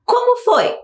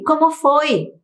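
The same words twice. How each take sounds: First: Como pitched very high then falling; high questioning tone. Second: Como foi read as a rising question. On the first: Teacher highlighting the question word Como, very high. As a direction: ask Como foi high and surprised. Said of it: "Temos outra". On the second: Teacher modelling the question Como foi. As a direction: stress Como, fall on foi. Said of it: "com aquela entonação necessária". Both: Shown as a demonstration.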